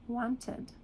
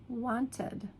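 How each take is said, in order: Both takes have the same delivery.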